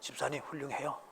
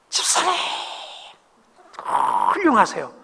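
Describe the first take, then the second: First: It is said low, sounding sarcastic. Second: It is said in a raised, high pitch.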